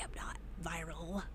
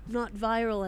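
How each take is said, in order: First: Very soft, voiceless whisper. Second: Said in the usual way. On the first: Pretend. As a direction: whisper it like a confidence. Whispers it, then repeats it aloud.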